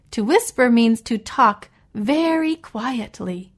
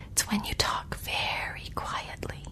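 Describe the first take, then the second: First: Said in the usual way. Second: Hushed, voiceless whisper. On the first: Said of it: "No, because I was whispering". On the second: Shown as a demonstration. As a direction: whisper it very quietly, as a demonstration. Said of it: "because I was whispering".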